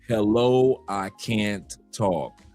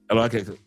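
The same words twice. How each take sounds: First: It is said slowly. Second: It is said fast.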